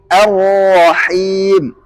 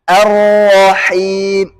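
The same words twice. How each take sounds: No difference in how they are said.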